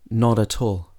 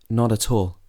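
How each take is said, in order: The two takes are said the same way.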